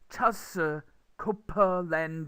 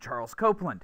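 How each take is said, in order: First: It is said with Korean-style syllables and sounds. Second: It is said with a native English accent. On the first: "if you write it in Korean, it comes out as" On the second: "my name's Charles Copeland"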